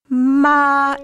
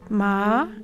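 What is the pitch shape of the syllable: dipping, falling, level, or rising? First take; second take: level; rising. First: The pitch stays level and steady. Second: The pitch rises gently upward. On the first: "it's a flat tone. It's really sung" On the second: "a gentle upward gliss"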